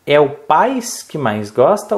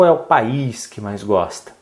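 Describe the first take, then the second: First: "país" said as "pais", stressed on the A; one-syllable PAIS. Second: "país" in two syllables, stressed on the Í; accented PA-ÍS. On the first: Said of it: "não é paz". ("país" dito "pais", com A tônico) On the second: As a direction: split "país" and lean on the long Í. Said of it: "faltou também outro acento". ("país" com Í tônico, pa-ÍS) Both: Shown as a demonstration.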